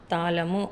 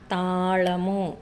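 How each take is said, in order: First: Said in the usual way. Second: తాళము said slowly with the tongue curled back on ళ; careful ళ sound. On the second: Shown as a demonstration. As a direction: stretch తాళము out and curl the tongue for ళ. (తాళము లో ళ ని నాలుక మడిచి నెమ్మదిగా పలకండి) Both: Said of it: "దీన్ని లా అని పలకాలి".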